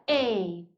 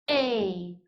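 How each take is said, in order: Both takes have the same delivery.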